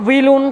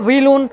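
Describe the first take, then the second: No difference in how they are said.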